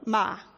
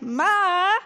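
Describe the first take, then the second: First: The pitch falls sharply from high to low. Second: The pitch dips down and then rises. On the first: It means to scold. "the way an English speaker might say it if you just read it off a page, it means to scold" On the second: It means hoarse. "like you're whining, with sort of your voice sweeping down and then back up higher"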